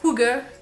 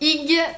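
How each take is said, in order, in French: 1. Le mot se prononce à la manière danoise. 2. Le mot se lit comme il s'écrit. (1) "ça se prononce Hugger, ou à peu près" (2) "Non, ça ne se prononce pas comme ça"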